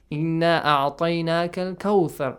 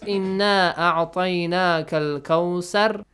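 First: Kawthar is said with a 'th' sound. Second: Kawthar is said with an 's' sound. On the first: The speaker calls it right. "Ahsan. He recited it correctly" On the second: The speaker calls it wrong. "instead of saying tha, the correct sound, if they say sar, so it becomes wrong"

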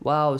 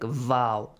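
First: It begins with a rounded w sound. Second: It begins with a buzzing v sound. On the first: The speaker calls it right. "It's like what" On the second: The speaker calls it wrong. "sometimes we will pronounce it like vow, which is incorrect"

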